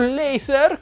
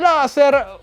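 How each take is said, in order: First: The word is pronounced with English sounds. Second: The word is pronounced with Italian sounds.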